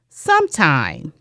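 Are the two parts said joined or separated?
joined. The two parts are said joined together. "blends to sometime"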